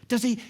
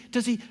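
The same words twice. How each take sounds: The two takes are said the same way.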